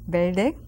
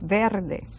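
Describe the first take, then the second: First: It is said fast with the R barely heard. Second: It is said carefully with the R clearly heard. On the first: "when we speak very fast in Spanish, you hardly hear that R" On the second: "but it's verde"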